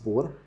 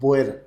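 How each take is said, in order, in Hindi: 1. यह शब्द एक अक्षर में कहा जाता है, bor। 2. यह शब्द दो अक्षरों में कहा जाता है, bo-yar। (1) "please do not use बोर" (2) "हम B O E R, बोयर pronounce करेंगे"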